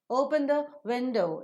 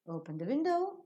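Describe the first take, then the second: First: The voice falls at the end. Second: The voice rises at the end. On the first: It is a command. "If you fall down, it's a command" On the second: It is a request. "If you raise up, it becomes a request"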